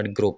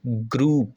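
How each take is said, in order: First: "group" with a short, clipped oo as in "grup"; mispronounced group. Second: "group" with a long, drawn-out oo, "groop"; correct group pronunciation. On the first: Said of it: "जो ठीक pronunciation होती है, that is not group". ("group" کا غلط تلفظ، چھوٹی اُو کے ساتھ) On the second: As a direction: stretch the vowel in "group" for a clear demonstration. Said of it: "इसकी जो ठीक प्रोनाउंसिएशन होती है". ("group" کا درست تلفظ، لمبی اُو کے ساتھ) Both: Shown as a demonstration.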